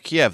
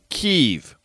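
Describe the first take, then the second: First: The name is said in the familiar Russian-based way. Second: The name is said in the Ukrainian way. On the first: This is the older, Russian-preferred name. "I grew up hearing Kiev" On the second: This is the Ukrainian-preferred name. "a very particular pronunciation"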